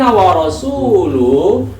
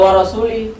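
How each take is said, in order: First: The word rasul ends with a 'u' vowel. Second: The word rasul ends with an 'i' vowel. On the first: The Messenger stands with God in disowning idolaters. The speaker calls it right. "tapi kalau annallaha bari'u minal musyrikin wa rasulu" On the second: The Messenger is grouped with the idolaters. The speaker calls it wrong. "Kalau wa rasuli"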